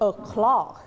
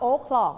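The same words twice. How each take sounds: First: The stress is on the second syllable. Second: The stress is on the first syllable.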